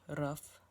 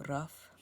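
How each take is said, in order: The two takes are said the same way.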